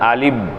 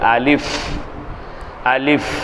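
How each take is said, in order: First: The final consonant is made with both lips. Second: The final consonant uses upper teeth on lower lip. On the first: The speaker calls it wrong. "ரெண்டு உதடும் ஒட்டிரும்" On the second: The speaker calls it right. "அப்படி அல்ல"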